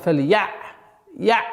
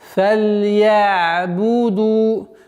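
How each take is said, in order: First: The ayn sound is cut off abruptly. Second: The ayn sound is held softly and glides. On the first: The speaker calls it wrong. "грубой ошибкой, когда на звуке айн резкая остановка" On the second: The speaker calls it right. "продолговатый, мягкой, скользящей остановка на звуке айн"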